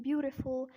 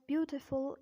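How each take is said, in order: First: American "beautiful" with a flapped T; American-accent demo of beautiful. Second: British "beautiful" with a crisp T; British-accent demo of beautiful. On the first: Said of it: "in American accent". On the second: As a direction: say beautiful the British way, T fully sounded. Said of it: "in British accent". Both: Shown as a demonstration.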